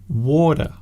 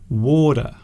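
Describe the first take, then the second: First: The middle consonant is a soft d. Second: The middle consonant is a soft d.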